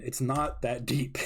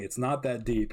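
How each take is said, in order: First: Slowed right down, leaning on not; slow emphatic. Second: Said in the usual way. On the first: Real, not acted. Vlogger dismissing fans' theories, slow and emphatic.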